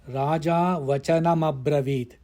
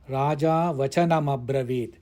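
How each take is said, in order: Both takes have the same delivery.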